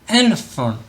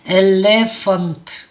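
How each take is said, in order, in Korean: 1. 강세가 없는 모음은 슈와 소리로 약하게 발음해요. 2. 모든 모음을 다 제대로 발음해요. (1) "elephant 이렇게 되는 거죠" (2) "엘레펀트 이렇게 읽는 친구들이 많죠"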